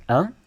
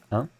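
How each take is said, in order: First: Un said with a rising tune; un rising up at the end. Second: Un said with a flat falling tune; un ending flat, no rise. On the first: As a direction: lift the end of un like a question. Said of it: "say it with a rising intonation". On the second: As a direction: keep un level and dropping. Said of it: "instead of un". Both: Shown as a demonstration.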